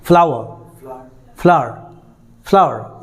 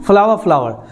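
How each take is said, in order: First: फ्लावर with the final r sounded, American style; American pronunciation. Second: फ्लावर with the r dropped, British style; British pronunciation. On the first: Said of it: "वो American में चला जाएगा". (American उच्चारण में फ्लावर) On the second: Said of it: "British जो pronunciation है वो है फ्लावर". (ब्रिटिश उच्चारण में फ्लावर) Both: Shown as a demonstration.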